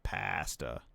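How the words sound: Pasta is said the Canadian way.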